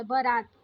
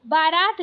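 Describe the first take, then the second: First: बारात with a short first a, "ba-raat"; correct short first vowel. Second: बारात with a long aa in the first syllable; wrong long first vowel. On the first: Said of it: "शुद्ध इसका बारात होता है". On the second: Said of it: "कहीं भी बारात नहीं होता है". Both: Shown as a demonstration.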